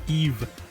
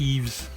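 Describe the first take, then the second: First: The name ends without an S sound. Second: The name ends with an S sound. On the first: The speaker calls it right. "I should pronounce it Eve" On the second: The speaker calls it wrong. "not with the Eves. I constantly pronounce the silent S"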